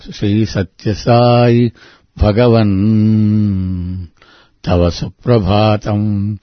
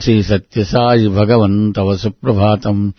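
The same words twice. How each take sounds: First: It has a clear pause after Bhagavan. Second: It runs on with no pause after Bhagavan. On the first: The speaker calls it right. "He wants a beautiful pause" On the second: The speaker calls it wrong. "It is not"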